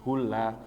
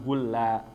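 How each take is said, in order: The two takes are said the same way.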